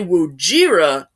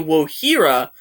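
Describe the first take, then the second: First: The middle consonant is a J sound. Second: The middle consonant is an H sound. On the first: "pronounce it as Wojira with a J" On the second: "at first say Wohira"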